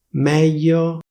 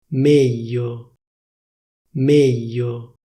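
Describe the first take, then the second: First: "Meglio" with an open E, mèglio, a bit higher; "Meglio" standard open E; official open e. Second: "Meglio" with a closed E, méglio; "Meglio" the Milan way, closed E; Milanese closed e. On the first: Showing viewers standard "Meglio", open E. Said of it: "prima ti dico la pronuncia ufficiale". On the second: Showing viewers Milanese "Meglio", closed E. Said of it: "come viene pronunciata a Milano". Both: Shown as a demonstration.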